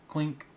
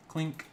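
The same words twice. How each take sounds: The two takes are said the same way.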